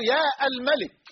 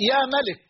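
First: يا الملك with a separate "al" after yaa; wrong article kept. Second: يا ملك joined as "yaa malik"; article dropped. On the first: Teacher showing what not to say, article sounded in يا الملك. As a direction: break after يا, then sound "al-malik". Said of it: "لا تقول". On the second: Teacher giving the correct vocative, smooth يا ملك without "al". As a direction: go straight from يا into ملك. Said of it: "بل تقول". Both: Shown as a demonstration.

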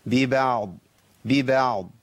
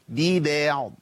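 First: "ببعض" with thin ba and ayn, thickening only at the Dad; light ba, heavy Dad. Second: "ببعض" stretched with an exaggeratedly thin "bee-beh"; over-thinned ba. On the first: Teacher modelling the stop for students, light ba. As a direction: keep "ببعض" light until the final Dad. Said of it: "نرقق الباء". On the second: Teacher parodying an overcorrection, over-thinned ba. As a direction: overdo the lightness of ba in "ببعض". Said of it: "وأبالغ في ترقيق الإيه؟". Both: Shown as a demonstration.

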